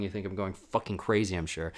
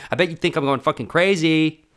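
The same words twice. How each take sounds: First: Said in the usual way. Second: Loud, high, manic yell; shouting. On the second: Real, not acted. To listeners who think I'm crazy, shouted. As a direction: yell it like you've lost it.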